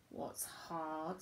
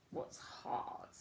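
First: Said in the usual way. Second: Hushed whispered question. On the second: Acted. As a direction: whisper it as if sharing a secret. Teacher asking children about school.

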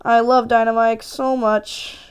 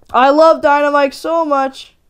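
First: Said in the usual way. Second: LOVE pushed out louder and higher; louder gushing love. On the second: Shown as a demonstration. Gamer gushing louder and higher about Dynamike.

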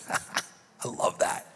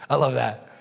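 First: Soft unvoiced laugh into a whisper; a hushed, laughing aside. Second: Said in the usual way. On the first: Real, not acted. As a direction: breathe it out in delight. Breathy aside after reading.

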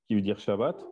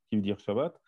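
The two takes are said the same way.

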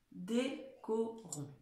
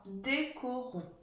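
First: Very slow and soft, syllable by syllable; décorons pronounced at half speed; slower dictation. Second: Slow and soft, each syllable clear; décorons drawn out slowly for pupils; slow dictation. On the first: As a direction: stretch it out even more. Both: Shown as a demonstration. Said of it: "je commence à vous la dicter".

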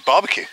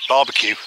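First: Barbecue said the French way, light and rising on the end. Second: Barbecue said the English way, BAR-be-cue; plain English Barbecue, stress on the first syllable. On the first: To viewers, showing the French barbecue with a lift. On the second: To a French viewer, Barbecue in plain English. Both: Shown as a demonstration. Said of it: "you have to pronounce it right".

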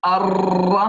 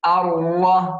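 First: الر with the ر rolled repeatedly; over-trill the ر in الر, long and rattling; wrong trilled R. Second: الر with the ر held, not trilled; tongue touches once on the ر of الر; single-tap R. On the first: Teacher shows the mistake, الر with a repeated trill. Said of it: "هذا خطأ، نقول الر". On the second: Teacher shows correct recitation, الر with one tap of ر. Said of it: "مرة واحدة فقط". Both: Shown as a demonstration.

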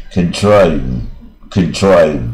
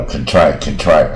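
First: Drawn-out CONTRIVE with the final v hummed; slow, careful "contrive", finishing on an audible v; voiced final v. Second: CONTRIVE cut off before the v, ending on "try"; "contrive" as "con-try", v missing; dropped final v. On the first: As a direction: let the v buzz at the end of "contrive". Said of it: "有一个嗯嗯的感觉". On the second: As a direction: say "contrive" without letting the v out. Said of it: "可是V没有出来就差一点". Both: Shown as a demonstration.

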